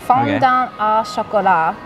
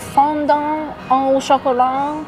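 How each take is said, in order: First: It is said in a Japanese-style accent. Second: It is said in an attempted French accent. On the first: "It's fondant in Japanese French" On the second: "That was a terrible French accent"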